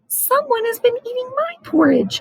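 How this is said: It is said in a small, tiny voice. "his wee little voice"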